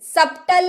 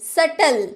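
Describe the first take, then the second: First: A b sound is pronounced before the t. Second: No b sound is heard before the t. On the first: The speaker calls it wrong. "सप्टल नहीं" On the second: The speaker calls it right. "सटल यानी कि जटिल"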